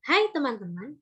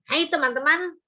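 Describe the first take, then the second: First: Said in the usual way. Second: A louder, sharper mock-angry hello; angry greeting. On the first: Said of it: "ketika kita ekspresinya datar". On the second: Shown as a demonstration. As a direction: greet them as if cross. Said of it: "kalau kita ekspresinya marah". (sapaan dengan nada marah)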